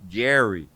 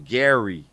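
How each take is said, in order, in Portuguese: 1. O nome é pronunciado com sotaque americano da Califórnia. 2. O nome é pronunciado com sotaque americano da Califórnia.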